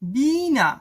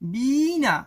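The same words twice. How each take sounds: Both takes have the same delivery.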